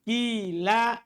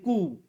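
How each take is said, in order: First: The first vowel is a pure i sound. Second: The first vowel is a pure u sound. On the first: "Kasru ma qoblal alif... fatuqlabul alifu ya'an" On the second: "Ikhlasu dhammil awal... Alifnya menjadi waw"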